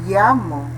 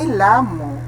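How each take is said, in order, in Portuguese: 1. A palavra começa com som de y. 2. A palavra começa com um som de l simples. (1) "A pronúncia, ya" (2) "Aqui não é lamo"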